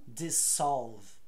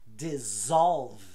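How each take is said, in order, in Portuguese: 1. O duplo S tem som surdo, como um 's'. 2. O duplo S tem som sonoro, como um 'z'. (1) "E não" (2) "com som de Z"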